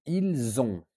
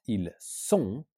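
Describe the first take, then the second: First: Ils ont with a Z linking into ont; correct pronunciation. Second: Ils sont with an S sound, not a Z; wrong pronunciation. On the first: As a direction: link ils to ont with a buzzing Z. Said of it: "like a Z sound". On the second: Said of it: "So not ils sont". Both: Shown as a demonstration.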